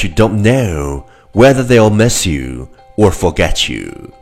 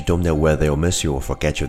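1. 这句话是中等、平稳的语速。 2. 这句话是一口气很快说完的。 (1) "跟上我的节奏。" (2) "一口气最快语速"

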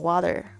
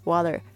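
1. T 被浊化，介于 T 和 D 之间。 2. T 被浊化，介于 T 和 D 之间。

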